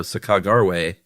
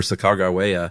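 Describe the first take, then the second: First: "Sacagawea" as suh-KAH-gar-way, stress on KAH; variant pronunciation. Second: "Sacagawea" as suh-KAH-gar-way-uh, stress on KAH; variant pronunciation. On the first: Co-host reading a journal spelling, "Sacagawea" as suh-KAH-gar-way. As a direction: slowly say "Sacagawea" with gar and a final way. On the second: Co-host offering the alternative, "Sacagawea" as suh-KAH-gar-way-uh. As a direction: say "Sacagawea" with gar and an added final uh. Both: Shown as a demonstration. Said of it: "emphasis on that".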